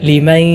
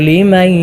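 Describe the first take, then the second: No difference in how they are said.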